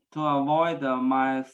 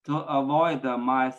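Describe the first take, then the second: No difference in how they are said.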